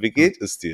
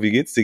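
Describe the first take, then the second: First: It is asked sincerely, with real concern. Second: It is asked casually, as a throwaway phrase.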